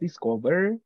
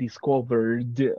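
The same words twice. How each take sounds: First: The final d sound is left out. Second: The final d sound is strongly exaggerated. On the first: "if you only tell me, I just discovered, in that case, it's in present" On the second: "not to exaggerate the sound because it is not necessary to go like discovered"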